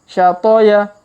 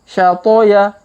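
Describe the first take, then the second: Both takes have the same delivery.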